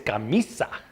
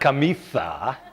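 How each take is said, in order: First: The s is said as a plain hiss. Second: The s is said with a lisp, like th. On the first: This is the way it was said before. The speaker calls it right. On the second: This is how the king says it. The speaker calls it wrong. "it's not"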